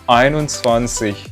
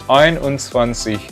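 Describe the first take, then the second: No difference in how they are said.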